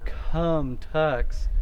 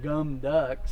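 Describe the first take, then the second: First: The K and T have a strong puff of air. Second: The consonants are voiced, like G and D. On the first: "it's not cum tux with a bunch of air" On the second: "It's not a G and a D. It's not gum ducks"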